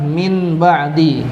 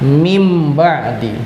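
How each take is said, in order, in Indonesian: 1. Kata pertama berakhir dengan bunyi n yang jelas. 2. Kata pertama berakhir dengan bunyi m. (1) "tulisannya adalah min ba'di" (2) "tapi dibacanya berubah menjadi mim ba'di"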